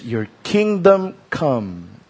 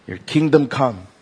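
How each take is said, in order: First: Very slow, weighty; savoring the prayer line slowly; slow quote. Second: Said in the usual way. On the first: Shown as a demonstration. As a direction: lay each word down slowly. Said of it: "Then he says".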